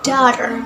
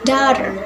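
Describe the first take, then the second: First: It is said in an American accent. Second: It is said in an American accent.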